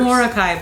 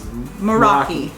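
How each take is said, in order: First: The name starts with 'Mor' and ends 'kai'. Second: The name starts with 'Mer' and ends 'ki'. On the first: The speaker calls it wrong. "We kept on saying" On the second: The speaker calls it right. "the correct pronunciation is"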